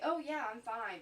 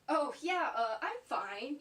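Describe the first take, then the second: First: It sounds plain and genuinely untroubled. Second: It sounds hesitant and unconvinced. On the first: The speaker really is fine. "So if you say" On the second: The speaker is not actually fine. "but you're really like"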